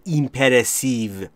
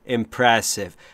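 First: The first vowel is said long. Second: The first vowel is said short. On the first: The speaker calls it wrong. "نمیگم impressive" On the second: The speaker calls it right. "اینجا با ای کوتاه"

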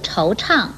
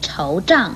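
First: The second syllable is chang with a falling tone. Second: The second syllable is zhang with a falling tone. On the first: The speaker calls it right. "如惆怅" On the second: The speaker calls it wrong. "不可以念惆胀"

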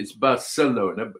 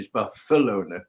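First: The c is pronounced like an s sound. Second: The c is pronounced like a th sound. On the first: This is how it is said in Mexico. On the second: This is how it is said in Spain. "In Spain"

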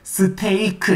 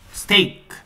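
First: The word is split into four separate syllables. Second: The word is said as one single syllable. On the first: The speaker calls it wrong. "네 번의 음절로 발음하면 잘못 알아듣고요" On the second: The speaker calls it right. "한 번에 스테이크 이렇게 말해주면 좀잘 알아듣습니다"

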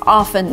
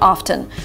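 First: The word is said with a silent T. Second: The word is said with an audible T. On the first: The speaker calls it right. "T here should be silent, so it's often" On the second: The speaker calls it wrong. "not often"

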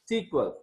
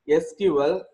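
First: It is said as one word. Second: Each letter is said separately. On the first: This is a shorter name some people use. "some people unable to pronounce that. They are calling it as a SQL" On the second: This is the full name. "the full name is SQL"

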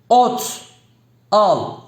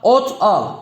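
First: The phrase is read slowly and deliberately. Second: The phrase is read quickly.

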